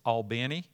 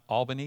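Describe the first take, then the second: First: The name is said the local Georgia way. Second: The name is said the general, non-local way. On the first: This is how locals say the name. The speaker calls it right. "it's Albany. ... We're in Georgia" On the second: This is how outsiders say the name. The speaker calls it wrong. "Just like it's not Albany"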